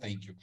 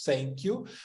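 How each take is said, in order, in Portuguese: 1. O primeiro som de thank é th. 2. O primeiro som de thank é um s. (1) "a caixinha do th" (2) "ou vai jogar para o som de S"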